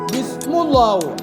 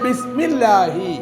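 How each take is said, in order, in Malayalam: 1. ഇരട്ട L-ന് മുമ്പുള്ള സ്വരം u ആണ്. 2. ഇരട്ട L-ന് മുമ്പുള്ള സ്വരം i ആണ്. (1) "പക്ഷെ അങ്ങനെ ആരും പറയില്ല, അങ്ങനെ പറയാൻ പാടില്ല" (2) "ബിസ്മില്ലാഹി എന്നാണ് പറയേണ്ടത്"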